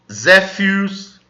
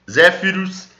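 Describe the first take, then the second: First: Zéfiros drawn out slowly, Z as in Portuguese; slow Z demo. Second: Said in the usual way. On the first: Shown as a demonstration. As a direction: spell it out slowly. (Zéfiros lento, com Z) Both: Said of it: "o Z como em português".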